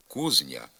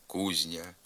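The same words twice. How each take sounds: First: «кузня» with з hard before ня; as written. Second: «кузня» with з palatalized before ня; softened з. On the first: Teacher reading the spelling, hard з in «кузня». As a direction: say «кузня» with an unsoftened з. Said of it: "Пишеться". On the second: Teacher giving the pronunciation, soft з in «кузня». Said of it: "а вимовляється". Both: Shown as a demonstration.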